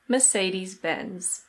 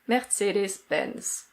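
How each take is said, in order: First: It is said in a British accent, r silent. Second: It is said with a German pronunciation. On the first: "in British English, we say Mercedes-Benz" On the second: "in German, this is pronounced Mercedes-Benz"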